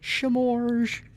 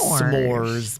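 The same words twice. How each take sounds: First: The word begins with a sh sound. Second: The word begins with a plain s sound. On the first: This is a playful form said for fun. "I have more fun saying it that way" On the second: This is the standard form of the word. "I know it's s'mores"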